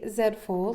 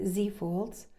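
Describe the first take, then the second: First: The letter is said as zed, Canadian style. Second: The letter is said as zee, American style.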